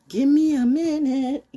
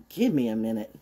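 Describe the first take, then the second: First: Drawn-out stall. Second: Said in the usual way. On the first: Pretend. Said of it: "Let's, uh".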